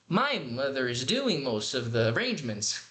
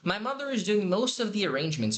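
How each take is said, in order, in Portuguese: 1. A ênfase sobe e desce em palavras estranhas. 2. A ênfase cai naturalmente nas palavras-chave. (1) "enfatizando errado, altos e baixos, palavras que não deveriam ser enfatizadas"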